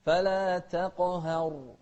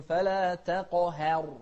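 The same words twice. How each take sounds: First: Chanted تقهر, ه gently thinned, not exaggerated; moderate light haa. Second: تقهر with the ه exaggeratedly thin, towards "heh"; over-thin the ه of تقهر, as a mistake; overdone light haa. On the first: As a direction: keep the ه of تقهر just slightly light between heavy ق and ر. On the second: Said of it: "لكن لا تبالغ". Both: Shown as a demonstration.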